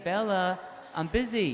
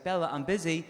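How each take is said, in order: First: Higher, louder, fed-up telling-off; hammed-up exasperation at the bell; exasperated. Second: A light, patient brush-off to the dog; mild mock firmness; mildly firm. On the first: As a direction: lose patience with the dog. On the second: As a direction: tell the dog off gently. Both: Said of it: "she'll get a little bit stubborn".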